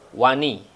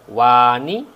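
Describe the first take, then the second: First: The first vowel is kept short. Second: The first vowel is drawn out long. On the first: The speaker calls it right. "tapi wani, karena alif yang di sini adalah alif e, bersifer ya, sehingga dia tidak ada" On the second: The speaker calls it wrong. "bukan dibaca wani"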